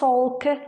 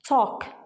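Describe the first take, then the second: First: The word is said with an audible L. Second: The word is said with a silent L. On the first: The speaker calls it wrong. "not talk" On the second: The speaker calls it right. "Here I pronounced it as talk"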